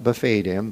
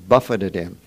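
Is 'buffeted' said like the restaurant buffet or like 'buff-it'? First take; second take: restaurant buffet; buff-it. First: The word sounds like the restaurant 'buffet'. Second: The word sounds like 'buff-it', meaning struck. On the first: He was at an all-you-can-eat restaurant. The speaker calls it wrong. "Not buffeted him" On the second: He was struck and harassed. The speaker calls it right. "He was buffeted by some demonic messenger that harassed him"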